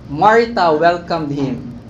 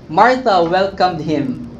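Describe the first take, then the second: No difference in how they are said.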